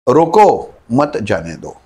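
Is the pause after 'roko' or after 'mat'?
after roko. The pause comes after 'roko'.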